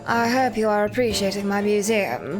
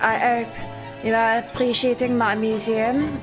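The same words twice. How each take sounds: First: It is said without a French accent. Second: It is said with a French accent. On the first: "the Courtney voice is like this" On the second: "but it would be more like"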